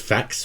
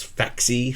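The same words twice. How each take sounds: First: "Fax" said as one syllable; pronunciation guess. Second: "Faxy" said with two syllables; alternative pronunciation guess. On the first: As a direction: say "Fax" to rhyme with "backs". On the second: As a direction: add an "ee" ending, "Faxy". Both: Shown as a demonstration. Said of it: "I think it's pronounced".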